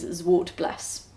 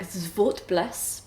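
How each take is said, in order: First: The word is said with plain English sounds. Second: The word is said with its original foreign sounds. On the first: "the accepted English pronunciation is Zwartbles" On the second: "Technically it's something like Zwartbles"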